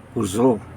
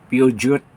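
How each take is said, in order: First: It is said with a French pronunciation. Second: It is read out the way it is spelled. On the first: "Pero sa kanila" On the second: "Sa atin, yung sasakyan na basahin natin"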